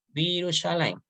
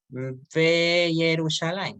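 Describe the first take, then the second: First: It begins with a merged 'vi' sound. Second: It begins with a separate 've' before 'Yerushalayim'. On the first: The speaker calls it right. "Virushalayim. Esa es la transformación que ocurre" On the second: The speaker calls it wrong. "No se va a pronunciar Ve Yerushalayim, no"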